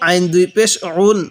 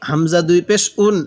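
First: "উন" pressed from the throat as ain; pressed Arabic ain. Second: "উন" begun as hamza, without pressure; unpressed hamza. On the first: Teacher models ain against hamza, "উন" with pressure. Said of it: "আইনটা পড়ার সময় একটু চাপ দিয়ে পড়ব". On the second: Teacher models hamza against ain, "উন" without pressure. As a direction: start "উন" lightly, no pressed ain. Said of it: "হামজাটা পড়ার সময় একটু চাপ দিব না". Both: Shown as a demonstration.

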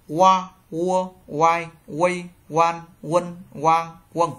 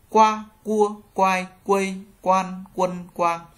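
First: "Qua, cua" as wa, wo, with no k; loud, even drill of "quai, quây, quan" starting on w; W sound. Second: "Qua, cua" with a hard unaspirated k; loud, even drill of "quai, quây, quan" on a plain k; G read as k. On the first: Teacher reading the W row, "Qua" with a gliding w. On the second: Teacher reading the G row, "Qua" with hard k. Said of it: "Chữ G đọc thành chữ cờ". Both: Shown as a demonstration.

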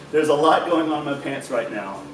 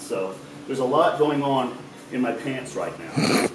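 First: Laughing through the repeated joke. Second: Said in the usual way. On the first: Real, not acted. Repeating his groin joke to his friend, laughing. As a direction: crack up as you say it again.

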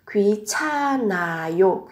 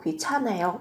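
First: 귀찮아요 slowly syllable by syllable, n carried onto the next vowel; linked n sound. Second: Said in the usual way. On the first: Shown as a demonstration. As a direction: draw out 귀찮아요, silent h, n linking into 아. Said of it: "Các bạn nối n lên sẽ là". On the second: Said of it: "Nối l lên đây".

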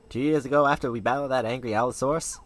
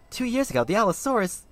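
First: Said in the usual way. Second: High, stunned echo of the words; surprised. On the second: Acted. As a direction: repeat it in disbelief. Kid stunned by the memory.

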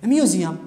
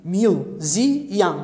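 First: Said in the usual way. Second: "museum" split into three beats, mu, se, um; syllable by syllable. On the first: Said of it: "أنقر وياها". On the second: Shown as a demonstration. Teacher showing students the count, "museum" in separate syllables. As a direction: stretch out "museum", pausing between syllables. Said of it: "كم مقطع؟".

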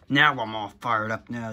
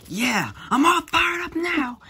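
First: Said in the usual way. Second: High, loud fiery shout; Natsu battle cry. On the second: Acted. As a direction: roar it like an anime hero.

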